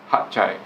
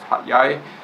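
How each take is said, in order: First: The second word starts with a ch sound. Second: The second word starts with a y sound. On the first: This is how local people say it. "the locals there pronounce it as Hat Chai" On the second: This is how some outsiders say it. "Some people pronounce it as Hat Yai"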